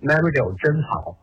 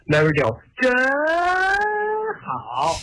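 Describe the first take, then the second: First: It is said in a plain, flat tone. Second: It is said in an exaggerated, enthusiastic tone.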